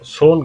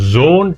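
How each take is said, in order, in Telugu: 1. ఈ పదం s శబ్దంతో మొదలవుతుంది. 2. ఈ పదం z శబ్దంతో మొదలవుతుంది. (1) "సోన్ కాదు" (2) "జోన్ ట్యాగ్ అంటారు"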